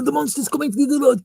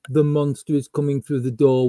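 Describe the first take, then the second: First: It is said with urgent, lively energy. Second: It is said flatly with little energy. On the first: The actor cares about the role. The speaker calls it right. "they actually like stepped up to the roles" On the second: The actor does not care about the role. The speaker calls it wrong. "instead of being"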